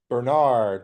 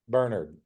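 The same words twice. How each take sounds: First: The name is said with the local American pronunciation. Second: The name is said with a British-style pronunciation. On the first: "over here I feel like we always say Bernard" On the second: "whenever they pop up on a Britcom, it's always Bernard"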